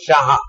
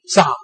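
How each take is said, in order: First: The name begins with a 'sh' sound. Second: The name begins with an 's' sound. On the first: The speaker calls it right. "His name was Shah. S H A H" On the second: The speaker calls it wrong. "So sh is pronounced as sa"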